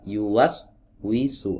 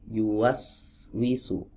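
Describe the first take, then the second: First: The sound stops briefly in the middle. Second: The sound flows on without any break. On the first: The speaker calls it wrong. "Ada putus sejenak" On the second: The speaker calls it right. "Yang pertama tidak diputus suaranya"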